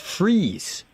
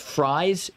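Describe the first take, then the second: First: The name rhymes with 'freeze'. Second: The name rhymes with 'fries'. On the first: The speaker calls it right. "It's freeze" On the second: The speaker calls it wrong. "I thought it was fries"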